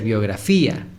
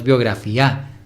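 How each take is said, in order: First: Biografía with a raised, lengthened í before the a; stress on the í. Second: Biografía said as biografiÁ, stress on the last a; wrong stress on final A. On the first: Teacher giving the reader the correct reading, stressed í in biografía. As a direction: hold the stressed í in biografía, separate from a. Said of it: "debe ser biografía". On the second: Teacher warning the reader off a misreading, stress on final a of biografía. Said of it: "no te guíes, no es biografía". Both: Shown as a demonstration.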